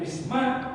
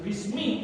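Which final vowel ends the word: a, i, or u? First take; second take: a; i. First: The word ends in an a vowel. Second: The word ends in an i vowel. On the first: The speaker calls it wrong. "tidak boleh bisma" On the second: The speaker calls it right. "Maka harus dibaca bismil, bismi"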